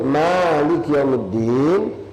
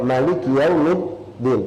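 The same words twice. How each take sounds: First: The first vowel of Maliki is held long. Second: The first vowel of Maliki is short. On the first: "panjang dua harakat"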